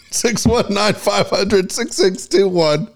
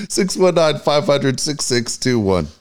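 First: Slow, high, laughing read; laughing through numbers. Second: Said in the usual way. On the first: Real, not acted. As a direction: giggle through the phone number. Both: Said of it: "I choked on it".

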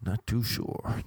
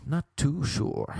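First: Said in the usual way. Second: Higher, odd-voiced not too sure; puzzled character voice; put-on doubtful voice. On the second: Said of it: "repeated in odd voice".

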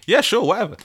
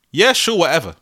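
First: Higher, dismissive yeah sure whatever. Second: Dismissive. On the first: Podcaster acting out the acronym, dismissive. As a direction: brush it off teasingly. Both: Shown as a demonstration. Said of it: "Y S W".

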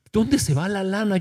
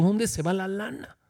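First: Said in the usual way. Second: Softer, muttered wondering to himself; quiet mock lament. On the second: Pastor imitating his own private complaint, softer. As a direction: let it fall away, puzzled and soft. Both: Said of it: "Yo a veces digo".

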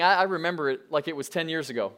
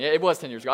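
First: Said in the usual way. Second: Was leaned on, correcting the joke; stress on was. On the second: Real, not acted. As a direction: hit was to set it straight. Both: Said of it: "Uh, just kidding".

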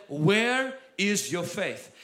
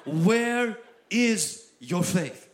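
First: Slow, deliberate question; Jesus asking the disciples, slowly; slow rebuke. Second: Very slow, each word weighted; Jesus rebuking the disciples, very slow; slow rebuke. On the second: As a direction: drag it out as a pointed question. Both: Retold or imitated. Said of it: "He said".

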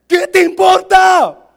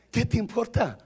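First: Very loud, high, stretched-out retort; hammed-up slow yell; mock shout. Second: Said in the usual way. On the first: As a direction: bellow each word slowly for comic effect. Repeats it as a shout.

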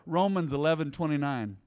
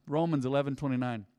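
No difference in how they are said.

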